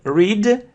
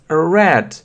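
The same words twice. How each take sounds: First: The vowel is long, rhyming with 'seed'. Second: The vowel is short, rhyming with 'bed'.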